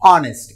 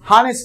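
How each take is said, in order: First: The word begins directly with a vowel. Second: The word begins with an h sound. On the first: The speaker calls it right. "హెచ్ అనేది silent" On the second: The speaker calls it wrong. "హానెస్ట్ కాదు"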